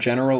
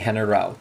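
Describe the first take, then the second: First: It is said with ordinary English pronunciation. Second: It is said with Spanish pronunciation rules. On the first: "instead of general" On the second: "they're going to use pronunciation rules in Spanish"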